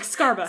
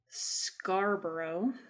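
First: The name is clipped, with sounds dropped. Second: All the syllables of the name are said. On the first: "they always like skip. It's like Scarba" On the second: "I'm sure I'm saying that wrong"

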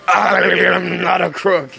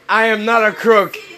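First: It is said in a put-on, jowly impression voice. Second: It is said in the speaker's ordinary voice. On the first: The speaker calls it right. "that's how you gotta say it. You gotta shake your face" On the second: The speaker calls it wrong. "but I said it wrong"

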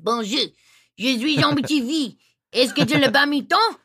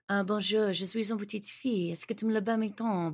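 First: It is said in a Cajun French accent. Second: It is said in a standard French accent.

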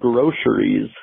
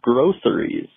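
First: The middle consonant is a 'sh' sound. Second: The middle consonant is an 's' sound. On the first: "groceries is spelled with a C, not an S-H or a C-H. So why do I pronounce it groceries" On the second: "instead of groceries"

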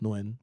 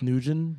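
First: The name is said as one syllable without t. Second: The name is said with two syllables ending in t. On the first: The speaker calls it right. "but it's Nguyen" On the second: The speaker calls it wrong. "I used to think, like, it was Nugent"

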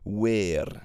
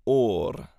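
First: It is said the western, Pembrokeshire way. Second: It is said the middle South Wales way. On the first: "the word for cold in Pembrokeshire, they would say weir" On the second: "we moved then further east, and I grew up saying or"

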